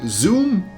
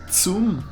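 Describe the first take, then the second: First: The word begins with a buzzing z sound. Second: The word begins with a sharp ts sound. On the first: The speaker calls it wrong. "Don't say zoom" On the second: The speaker calls it right. "the Z is like a T S sound, so you say zoom"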